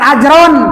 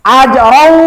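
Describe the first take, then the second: First: The final n sound is kept, nasal and audible. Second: The final n merges into the following w. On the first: The speaker calls it wrong. "jangan ajron" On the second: The speaker calls it right. "kalau ajrau baru idgham, gunanya kurang"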